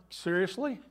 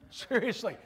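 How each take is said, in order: First: "Seriously?" with a sharp questioning rise on the end; incredulous rising seriously. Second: "Seriously?" dropping down at the end, fed up; flat falling seriously. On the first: Jesus to Satan, first "Seriously?" rising in disbelief. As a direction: ask "Seriously?" going up, disbelieving. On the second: Jesus to Satan, second "Seriously?" falling, fed up. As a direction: land "Seriously?" with a weary fall. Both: Acted.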